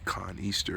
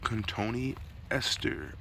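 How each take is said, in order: First: The name is said in about three syllables. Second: The name is said in about five syllables. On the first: The speaker calls it wrong. "I would say Con Easter or all kinds of weird names" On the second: The speaker calls it right. "I believe that's how you pronounce it"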